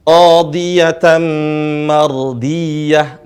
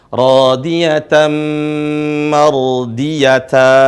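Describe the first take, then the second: First: The last word ends with a soft h sound. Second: The last word ends with a ta sound. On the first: The speaker calls it right. "tapi dibaca radiyah, mardiyah" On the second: The speaker calls it wrong. "bukan radiyatan mardiyata, bukan"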